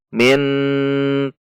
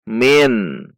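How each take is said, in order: First: The word's final nasal is stretched out long. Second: The word is short and clear with light nasality. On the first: The speaker calls it wrong. "atau dipanjangkan" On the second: The speaker calls it right. "dibaca izhar atau jelas"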